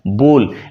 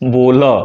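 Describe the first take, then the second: First: The word ends cleanly on the 'l' sound. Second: A short 'a' sound follows the final 'l'. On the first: "तो इसको हम कहेंगे बोल" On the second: "ल के बाद अ का उच्चारण आता है"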